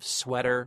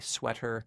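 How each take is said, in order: First: The middle consonant sounds like a soft D. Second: The middle consonant is a crisp T. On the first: "instead of sweater with kind of a D" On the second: "you say sweater"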